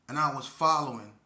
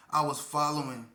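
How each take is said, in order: First: Following leaned on, louder; stress on following. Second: "following" said firm and louder; stress on following. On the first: Telling young listeners, leaning on "following". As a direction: press hard on "following". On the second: Repeating the warning, stressing "following". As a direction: weigh down on "following". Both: Shown as a demonstration. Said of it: "Notice how I put emphasis on following".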